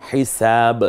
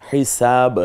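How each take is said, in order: Both takes have the same delivery.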